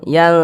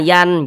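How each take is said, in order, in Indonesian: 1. Bunyi n disamarkan dan didengungkan. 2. Bunyi n diucapkan penuh dan jelas. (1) "tapi disamarkan. Yang yang seperti itu" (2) "bunyi n-nya tuh jelas sempurna yan, jangan"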